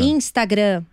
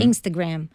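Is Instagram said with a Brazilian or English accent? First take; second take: Brazilian; English. First: It is said with a Brazilian Portuguese accent. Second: It is said with an English accent. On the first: "o abrasileirar" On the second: "a gente pode se habituar a falar"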